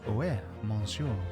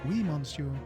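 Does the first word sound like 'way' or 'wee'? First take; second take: way; wee. First: The first word sounds like 'way'. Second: The first word sounds like 'wee'. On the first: This is how it is actually pronounced. The speaker calls it right. "But instead it's actually, ouais" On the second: This is how people usually hear it said. The speaker calls it wrong. "you always hear it like oui"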